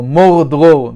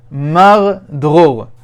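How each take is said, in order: First: "mor" said with a round oh, then "dror"; alternative pronunciation. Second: "mar" said with an open ah, then "dror"; variant pronunciation. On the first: Teacher offers another way to pronounce it, "mor" with an oh vowel. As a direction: say "mor dror" slowly, both words with an oh. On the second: Teacher reads out the Hebrew words, "mar" with an ah vowel. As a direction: say "mar dror" slowly, first word rhyming with "far". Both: Shown as a demonstration. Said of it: "depending on how you, uh, pronounce it".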